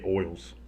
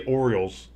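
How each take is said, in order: First: "oils" for Orioles, middle syllable swallowed; Baltimore pronunciation. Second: Said in the usual way. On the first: Shown as a demonstration. Announcer demonstrating Baltimoreese, "oils" said as two-sound slur for Orioles. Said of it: "it's apparently oils". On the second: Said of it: "If you wanna say Orioles".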